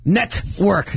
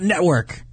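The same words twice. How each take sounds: First: The T in the middle is clearly pronounced. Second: The T in the middle is dropped. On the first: The speaker calls it right. "Pronounce the T in network" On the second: The speaker calls it wrong. "not network"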